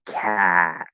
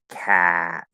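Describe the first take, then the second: Both takes have the same delivery.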